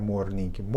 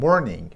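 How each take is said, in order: First: Morning with a flat Persian r; wrong morning. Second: Morning with a curled American r; correct morning. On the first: (morning را با ر فارسی بگو) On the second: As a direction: say morning with a back r. (morning را با آر آمریکایی بگو) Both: Shown as a demonstration.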